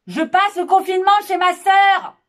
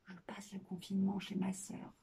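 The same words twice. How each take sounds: First: The sentence is said at moderate loudness. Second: The sentence is said softly. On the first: "mezzo forte"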